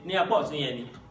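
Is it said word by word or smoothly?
smoothly. The words run together without breaks.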